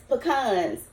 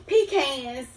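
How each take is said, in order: First: "pecans" as puh-KAHNS; pronunciation demo. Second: "pecans" as PEE-cans; pronunciation demo. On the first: Cook comparing ways folks say it, "pecans" as puh-KAHNS. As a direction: say "pecans" with a short first syllable, stressed KAHNS. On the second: Cook comparing ways folks say it, "pecans" as PEE-cans. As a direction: say "pecans" with a long ee and a CAN ending. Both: Shown as a demonstration. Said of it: "instead of saying pecans, pecans?".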